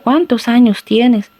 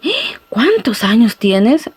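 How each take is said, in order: First: It is asked as a plain question. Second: It is exclaimed with surprise.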